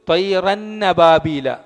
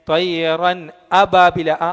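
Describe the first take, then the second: First: The n runs into 'ababila' with no glottal stop. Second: A clear glottal stop comes before 'ababila'. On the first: The speaker calls it wrong. "ഈ ഹംസയെ നമ്മൾ വ്യക്തമാക്കാതെ എന്തോതും?" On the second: The speaker calls it right. "ഹംസയെ വ്യക്തമാക്കി തന്നെ ഉച്ചരിക്കണം"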